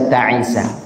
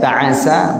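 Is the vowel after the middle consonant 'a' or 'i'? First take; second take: i; a. First: The middle consonant is followed by an 'i' vowel. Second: The middle consonant is followed by an 'a' vowel. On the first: "bi kasril 'ain" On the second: "Boleh juga dengan di fathahkan"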